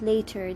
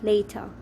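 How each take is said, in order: First: The final r sound is pronounced. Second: The final r sound is silent. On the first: The speaker calls it wrong. "they don't pronounce it later" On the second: The speaker calls it right. "they pronounce it later. So the R is probably silent"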